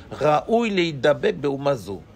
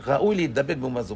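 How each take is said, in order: First: Slow, weighed recitation of each word; slow deliberate study-hall reading; slow reading of the text. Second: Said in the usual way. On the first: Shown as a demonstration. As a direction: read the Hebrew slowly, word by word.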